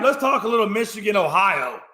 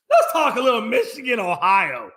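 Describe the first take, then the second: First: Said in the usual way. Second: Excited announcement. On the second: Shown as a demonstration. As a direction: announce the big game with relish. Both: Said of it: "I've been waiting on this one".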